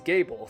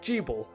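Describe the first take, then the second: First: The name begins with a hard G sound. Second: The name begins with a J sound. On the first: The speaker calls it wrong. "you do not pronounce Gable as Gable" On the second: The speaker calls it right. "The name is pronounced Jeeble"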